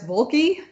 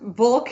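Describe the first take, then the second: First: The name is said with an added final syllable. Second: The name is said as one syllable. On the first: The speaker calls it wrong. "pronounced Volk as Volky" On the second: The speaker calls it right. "it's Volk"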